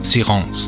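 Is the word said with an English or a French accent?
French. It is said with a French pronunciation.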